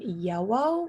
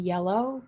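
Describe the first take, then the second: First: The middle consonant is a W sound. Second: The middle consonant is an L sound. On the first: "substituting it for a W" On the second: "those two L's in the middle of yellow"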